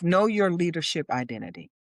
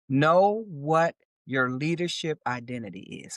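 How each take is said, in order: First: It is said at a normal pace. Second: It is said more slowly.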